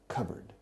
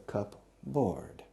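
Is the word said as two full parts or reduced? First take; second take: reduced; two parts. First: It is reduced to 'cubberd' with no clear p. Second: Both parts are said in full, 'cup board'. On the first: This is how it is said today. "the evolution of the pronunciation has transformed the pronunciation into cupboard" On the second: This is the original form of the name. "And so it was called a cupboard"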